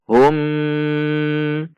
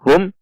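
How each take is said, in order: First: The final m is held with a nasal hum. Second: The final m is cut off abruptly. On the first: "tidak boleh dibaca dengung seperti contoh hum" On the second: "atau dihentak seperti contoh hum"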